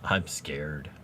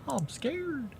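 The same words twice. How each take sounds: First: Said in the usual way. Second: Tiny, high, soft mock-frightened voice; mock scared. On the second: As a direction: squeak it softly, pretending fear.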